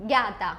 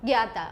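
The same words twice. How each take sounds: The two takes are said the same way.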